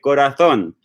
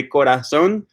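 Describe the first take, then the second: First: Corazón with a th sound for the z; Spain-style "corazón", z like English th; Castilian Spanish pronunciation. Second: Corazón with an s sound for the z; Latin American pronunciation. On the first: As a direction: say "corazón" as co-ra-THON, tongue between the teeth. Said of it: "when I pronounce the word for heart in Spanish". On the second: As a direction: seseo "corazón", z said like s. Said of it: "sometimes I say corazón". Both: Shown as a demonstration.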